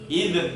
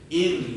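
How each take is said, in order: First: The tongue is released, adding a glottal catch. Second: The tongue tip is held, with no glottal catch. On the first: The speaker calls it wrong. "Kalau langsung dilepas, id, akhirnya mantulnya muncul hamzah sukun" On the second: The speaker calls it right. "Jadi tipis tapi tetap ditahan ujung lidahnya itu supaya nggak lepas"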